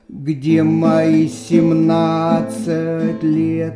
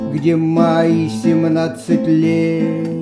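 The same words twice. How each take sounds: First: The stress is on семнадцать. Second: The stress is on лет.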